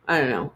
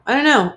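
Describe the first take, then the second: First: Said in the usual way. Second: Higher and louder, throwing up hands; a sudden loud burst of I don't know; louder exasperated repeat. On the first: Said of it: "repeated, second louder". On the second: Real, not acted. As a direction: blurt it out the second time, exasperated. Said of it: "repeated, louder higher".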